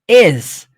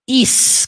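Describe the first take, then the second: First: The word ends with a buzzing z sound. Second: The word ends with a hissing s sound. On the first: The speaker calls it right. "tem som de Z" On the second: The speaker calls it wrong. "Is com som de S"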